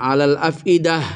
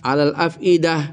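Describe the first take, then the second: Both takes have the same delivery.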